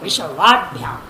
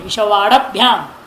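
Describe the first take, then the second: First: No vowel follows the 'd' sound. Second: A short vowel follows the 'd' sound. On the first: The speaker calls it right. "ड हल है, ड में अ नहीं है" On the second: The speaker calls it wrong. "ऐसा नहीं उच्चारण होगा"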